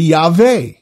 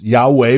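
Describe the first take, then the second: First: The name is said with a V sound. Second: The name is said with a W sound.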